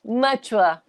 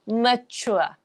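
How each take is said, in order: First: The word ends in a 'ua' sound. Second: The same.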